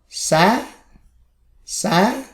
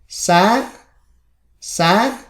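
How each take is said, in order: No difference in how they are said.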